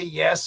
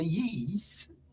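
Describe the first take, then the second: First: The word is said in a plain, ordinary way. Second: The word is said with a South African accent. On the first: "they don't say yes" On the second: "they say yees"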